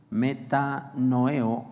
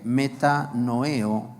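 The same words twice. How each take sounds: First: Metanoeo said very slowly again, stress on the E, falling at the end; teacher repeating metanoeo slowly, E stressed, falling close; Greek word metanoeo. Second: Metanoeo said very slowly, syllable by syllable, stress on the E; teaching the Greek metanoeo, slow, stress on the E; Greek word metanoeo. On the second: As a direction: spell out metanoeo slowly, leaning on the E. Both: Shown as a demonstration. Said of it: "acento en la E".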